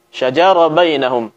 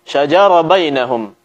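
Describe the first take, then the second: First: The sh before j is weak and faint. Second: The same.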